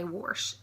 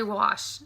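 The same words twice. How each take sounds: First: "wash" said "worsh", with an R; family's warsh. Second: "wash" said "wahsh", no R; wash without R. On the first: Retold or imitated. Imitating her family, worsh. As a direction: slip an R into wash. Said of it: "ninety percent of my family do not say wash". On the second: Shown as a demonstration. Vlogger giving her own way, wahsh. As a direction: keep wash open, with no R. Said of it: "I say wash".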